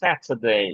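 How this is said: The t is a crisp, clear t sound. "ব্রিটিশরা বলবে স্যাটারডে"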